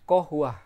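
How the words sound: The word begins with a k sound. This is the standard Arabic form. "Huruf qaf mereka menyebutnya dengan hamzah"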